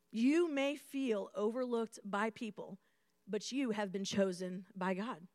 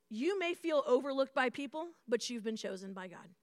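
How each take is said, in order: First: "You may feel overlooked by people" said slowly and softer, letting each word land; slower, weighted repeat. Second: Said in the usual way. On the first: Shown as a demonstration. Pastor repeats the key point softly to the crowd. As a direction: press it in gently. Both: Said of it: "repeats the line more slowly".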